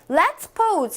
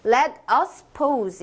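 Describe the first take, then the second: First: Let us is contracted into one syllable. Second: Let us is said as two full words. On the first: It sounds more familiar and light. "let us를 줄이면 바로 let's" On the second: It sounds more polite. "let us라고 하면 조금 더 조금 let's보다는 정중한 표현"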